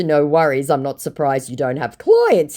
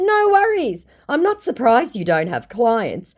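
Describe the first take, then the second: First: Said in the usual way. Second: High, mocking no worries; sassy comeback. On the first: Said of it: "And in response to". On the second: Vlogger re-reading her sassy reply to the scammer. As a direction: toss it off with a sneer.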